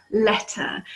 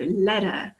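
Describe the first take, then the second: First: Crisp T in "letter"; British T. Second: "letter" with the T as a soft D; American soft T. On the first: English teacher shows learners the British T, crisp "letter". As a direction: say "letter" with a clear T in the middle. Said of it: "we always pronounce the T sound". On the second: British teacher imitates Americans, "letter" with a D sound. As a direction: say "letter" like "ledder", American style. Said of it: "It sounds more like a D". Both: Shown as a demonstration.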